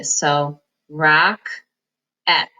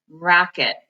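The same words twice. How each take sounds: First: Rock-et, split into two slow syllables; "rock-et" said as two separate beats, slowly. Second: "rocket" blended, second vowel reduced to ih; blended word. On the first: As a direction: sound out "rocket" slowly as rock-et. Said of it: "Now we don't say rocket". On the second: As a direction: say "rocket" as one word, rock-it. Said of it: "we say rocket". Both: Shown as a demonstration.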